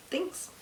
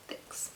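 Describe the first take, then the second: First: High, soft, squeaky thanks. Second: Whispered thanks; whispering. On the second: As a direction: breathe the word out softly. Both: Acted. Playful sign-off, repeated thanks.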